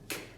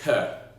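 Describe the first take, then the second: First: The consonant sound is clipped with no vowel. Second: The consonant sound has a vowel added after it. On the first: The speaker calls it right. "we're going to go K" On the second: The speaker calls it wrong. "not K"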